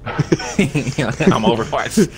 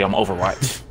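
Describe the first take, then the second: First: "I'm Overwatch" drawn out slowly, laughing; slow dramatic soldier line. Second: Said in the usual way. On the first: Shown as a demonstration. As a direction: say "I'm Overwatch" like a movie sniper. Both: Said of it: "You supposed to say".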